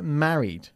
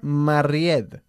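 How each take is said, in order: First: The stress is on the first syllable. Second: The stress is on the second syllable. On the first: The speaker calls it right. "Se pronuncia married. ... enfatizando la primera sílaba" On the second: The speaker calls it wrong. "no decimos nunca married"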